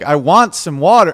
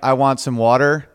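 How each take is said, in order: First: The line is said in a stiff, deliberate way. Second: The line is said in a casual, easy way. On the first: The speaker is overthinking how to say it. The speaker calls it wrong. "just you don't have to be like" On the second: The speaker is simply saying it without thinking. The speaker calls it right. "Versus you're just saying it"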